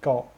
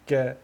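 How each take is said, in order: First: The k is heavy, with the tongue back raised. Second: The k is light, with the tongue back lowered. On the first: The speaker calls it wrong. "on dit jamais" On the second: The speaker calls it right. "elle fait partie des lettres fines"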